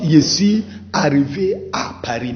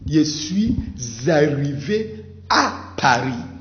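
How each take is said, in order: First: Suis and arrivé are said separately, without linking. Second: Suis is linked to arrivé with a z sound. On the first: The speaker calls it wrong. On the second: The speaker calls it right. "you have to observe liaison"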